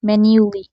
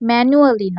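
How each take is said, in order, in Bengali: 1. শেষের আগের 'a' নীরব, তিন সিলেবল। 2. শেষের আগের 'a' উচ্চারণ করা হয়, চার সিলেবল।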